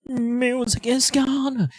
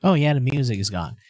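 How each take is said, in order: First: "Music is gone" said higher and slowly drawn out; higher, slower repeat. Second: Said in the usual way. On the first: Shown as a demonstration. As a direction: lift the pitch and stretch "gone".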